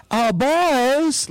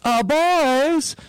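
First: Put-on light southern accent, higher and drawn out, rising on boys; imitating Gene Wilder's sly southern call. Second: Put-on higher southern accent, boys stretched and rising. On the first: Gene Wilder calling to the Klan guys, imitated southern accent. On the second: Retelling Gene Wilder luring the Klan, southern accent. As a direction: coax them over with a light southern accent. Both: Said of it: "like in a southern accent".

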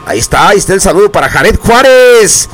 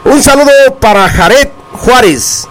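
First: Said in the usual way. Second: Higher, sung-out radio greeting; hyped radio announcer greeting; announcer shout-out. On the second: Acted. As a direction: call the greeting out like a DJ.

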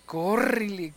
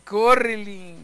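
First: Córrele said quickly at normal loudness; first córrele, still held back; mild fright. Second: Louder, higher mock cry of córrele; panicked yell. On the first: Retold or imitated. Frightened boy starting to flee, mild worried call. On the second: Frightened boy urging others to run, hammed-up yell. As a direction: yell córrele as if fleeing the devil. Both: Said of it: "le gritaban eso y dice".

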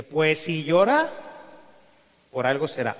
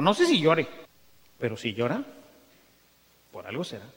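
First: Slow with a pause after llora; repeating the Pope's wise answer, slowly; quoted, drawn out. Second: Slow, trailing off into a hush; quoted slowly, fading away. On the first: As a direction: hold llora, then drop on algo será. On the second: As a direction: let the words sink down and fade. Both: Retold or imitated.

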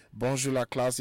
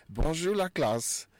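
First: Said in the usual way. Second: Slow, high, drawn-out Bonjour, la classe; each syllable of "Bonjour, la classe" stretched and lifted; model phrase for class. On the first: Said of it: "greet the class". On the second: Shown as a demonstration. Teacher models greeting for radio class, slow and high. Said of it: "Répétez après moi".

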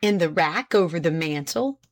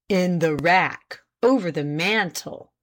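First: Said in the usual way. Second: Slow, deliberate echo of an answer; measured courtroom repetition; pointed repeat. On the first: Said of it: "repeated Page". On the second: A narrator's reading. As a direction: repeat it weightily, pausing for the jury to absorb. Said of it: "repeated Page, slowly glancing at the jurors".

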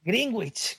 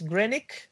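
First: Greenwich as "GRING-gwich", higher, hard g before the w; Spanish pronunciation. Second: Greenwich as "GREN-ick", silent w; correct English pronunciation. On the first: Host repeats it for listeners, Greenwich as Spanish "gringwich". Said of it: "como lo decimos en español". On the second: Host corrects the Spanish habit, Greenwich as "GREN-ick". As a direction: say Greenwich as "grenik", ending in k. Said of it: "bien pronunciado es". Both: Shown as a demonstration.

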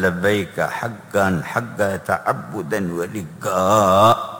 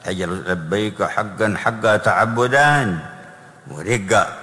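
First: Very slow, drawn-out reverent chant of لبيك حقا حقا; very slow intoned call. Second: Slow, drawn-out reverent recitation; slow intoned quote. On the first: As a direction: draw out every syllable devoutly. Repeating the talbiya. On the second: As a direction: stretch each word of the call. Quoting the Prophet's talbiya. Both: Real, not acted.

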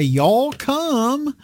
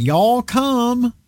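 First: High, light southern drawl on Y'all come; a first easy try at a southern Y'all come; southern accent. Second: Put-on Y'all come in a thick southern accent, pitched high; heavy southern accent. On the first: Pretend. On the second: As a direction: call out Y'all come like a southern host at an open door. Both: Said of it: "a heavy southern accent".

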